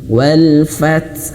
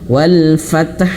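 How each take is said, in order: First: The t sound stops and releases a puff. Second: The t sound is followed by a vowel. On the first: The speaker calls it right. "tapi wal fath" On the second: The speaker calls it wrong. "huruf ta ini berharakat. Wal fath tidak ya"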